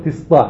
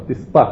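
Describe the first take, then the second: First: תסתא in Sanani Yemenite pronunciation; Sanani tet. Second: תסתא in Sharabi Yemenite pronunciation; Sharabi tet. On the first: Teacher contrasting two accents, Sanani tet in תסתא. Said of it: "הסנעני אומרים". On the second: Teacher contrasting two accents, Sharabi tet in תסתא. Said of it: "השרעבים אומרים את הטט". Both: Shown as a demonstration.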